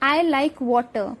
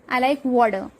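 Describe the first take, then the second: First: The T in water is a clear T. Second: The T in water turns into a D.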